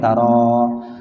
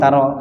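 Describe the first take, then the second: First: The final vowel is held long. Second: The final vowel is cut short. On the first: This is the original form before lam. "taro dibaca asalnya memang panjang ya" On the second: The weak letter is dropped after lam. "Karena ketemu lam dibaca pendek"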